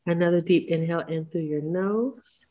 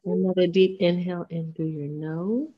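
First: Breathy unvoiced breathing cue; whisper. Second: Said in the usual way.

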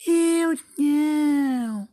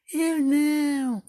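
First: Very high, very slow squeaky refusal; a little rat stretching out its no; tiny rat voice. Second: High, slow kitty refusal; a lazy cat saying no, drawn out; little cat voice. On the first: The rat refuses to help the hen, in a high drawn-out squeak. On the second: The cat answers the hen, in a high slow kitty voice. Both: Acted.

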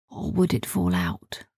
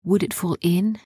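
First: "or would it fall out?" low and falling; low dramatic "fall out"; suspense answer. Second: "Would it fall in" with a rising tune; rising suspenseful "fall in"; suspense question. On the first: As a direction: drop the voice on "out". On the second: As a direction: hang on the word "in", rising. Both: A narrator's reading. Suspense over the vat.

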